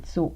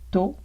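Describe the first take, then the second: First: The t is followed by a hissing s. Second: The t is plain with no hiss. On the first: The speaker calls it wrong. "il n'y a pas de tsu et tso et tse" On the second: The speaker calls it right. "on prononce ta. Tu, to, te"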